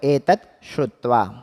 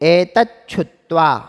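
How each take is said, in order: First: The two words are spoken as separate words. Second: The two words are run together as one.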